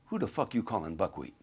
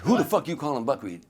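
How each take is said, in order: First: Said in the usual way. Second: Louder, higher indignant demand; angry challenge. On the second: Retold or imitated. Drunk Sammy confronting a waiter, acted angry challenge. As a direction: repeat it harder, as an acted confrontation.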